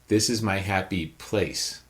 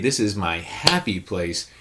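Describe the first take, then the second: First: The word place carries the stress. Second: The word happy carries the stress. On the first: The location itself is what matters. "Last word" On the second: The attitude toward the place is what matters. "we're putting that stress on the attitude"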